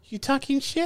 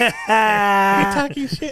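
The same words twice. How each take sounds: First: Higher, quieter put-on voice, teasing; mock tough-guy challenge. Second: Slow, drawn-out shouted challenge; mock tough-guy shout. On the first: Friend imitating angry Danny confronting Alyssa, mock tough guy. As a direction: squint and ask if they're talking trash. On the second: Friend imitating angry Danny confronting Alyssa, slow mock shout. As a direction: lean in and bark it slowly. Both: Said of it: "He goes".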